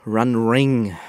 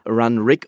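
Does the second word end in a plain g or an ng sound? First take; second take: ng; plain g. First: The second word ends in an ng sound. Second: The second word ends in a plain g sound. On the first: The speaker calls it wrong. "und nicht Run Ring, wie ich es fälschlicherweise gesagt habe" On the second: The speaker calls it right. "Die heißen Run Rig"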